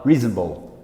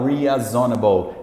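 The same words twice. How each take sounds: First: The middle syllables are reduced and run together. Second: Every syllable is pronounced fully and distinctly. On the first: The speaker calls it right. "ele fala reasonable" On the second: The speaker calls it wrong. "o americano não fala reasonable"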